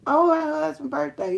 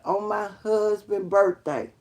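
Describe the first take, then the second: First: "on my husband's birthday" high and loud; amazed emphasis. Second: "on my husband's birthday" slow and firm; measured emphasis. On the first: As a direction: repeat "on my husband's birthday" with raised pitch and volume. Repeats phrase more emphatically. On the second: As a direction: say "on my husband's birthday" slowly, with weight. First take of repeated phrase. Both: Real, not acted.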